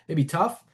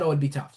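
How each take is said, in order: First: "tough" lifted in a questioning rise; echoed as a question. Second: Said in the usual way. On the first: Shown as a demonstration. Coach echoing the client's words back as a question. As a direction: hand "It'd be tough" back with a rising, asking tune. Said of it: "repeat the last couple words as a question". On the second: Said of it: "So I'll repeat the last couple words as a question".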